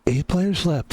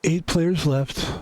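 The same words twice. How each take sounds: First: Said in the usual way. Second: Slow, hushed golf announcer read; golf commentator voice. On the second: Shown as a demonstration. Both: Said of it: "I've got my golf voice on".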